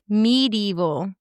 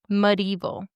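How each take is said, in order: First: The first syllable sounds like 'mead'. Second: The first syllable sounds like 'muh'. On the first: "he's saying like medieval, like mead" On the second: "it's showing the the pronunciation as "muh,""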